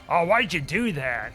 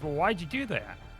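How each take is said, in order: First: It is asked in an aggressive, accusing tone. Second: It is asked in a calm, neutral tone.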